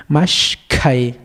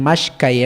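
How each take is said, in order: First: "mashkai" with a breath-heavy aspirated k; K aspirada. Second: "mashkai" run together with a plain k; K sin aspirar. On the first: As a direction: break after "mash", then a puffed k in "mashkai". ("mashkai" con K aspirada, sonando la H) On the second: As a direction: say "mashkai" with no air after the k. ("mashkai" con K simple, H muda) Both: Shown as a demonstration. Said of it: "no estoy diciendo mashkai".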